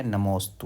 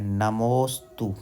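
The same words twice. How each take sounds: First: Said in the usual way. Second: नमोस्तु drawn out slowly, the मो held long; stretched, careful नमोस्तु; teaching pronunciation. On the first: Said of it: "क्या है?". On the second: Shown as a demonstration. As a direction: model नमोस्तु slowly for students to copy. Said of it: "इस तरह से है".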